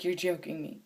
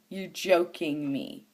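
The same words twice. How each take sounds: First: Hushed, disbelieving mutter; quiet disbelief. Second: JOKING drawn out in slow disbelief. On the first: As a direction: say it low to yourself in disbelief. Retelling her disbelief, first take. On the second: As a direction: stretch out the word JOKING, stunned. Retelling her disbelief, emphatic repeat. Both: Retold or imitated.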